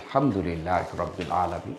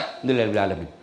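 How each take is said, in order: First: It is said slowly and clearly, with feeling. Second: It is said quickly and carelessly, without feeling.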